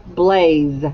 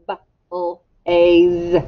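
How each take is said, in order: First: Said in the usual way. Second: BLAZE tapped out sound by sound, b, l, drawn-out aze. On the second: Shown as a demonstration. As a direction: stretch B-l-a-z-e into separate sounds with gaps. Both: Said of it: "Elbows up".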